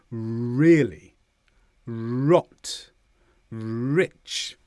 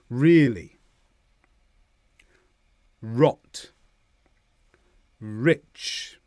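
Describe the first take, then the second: First: "Really", "Rot", "Rich" with long held opening r; exaggerated r. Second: Said in the usual way. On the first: Shown as a demonstration. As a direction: hold the r before releasing "Really", "Rot", "Rich". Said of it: "I'll exaggerate slightly". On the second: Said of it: "listen to me again, then you can practice".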